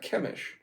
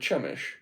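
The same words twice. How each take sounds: First: The name begins with a hard k sound. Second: The name begins with a ch sound. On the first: "say C H with a K" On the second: "or a Ch"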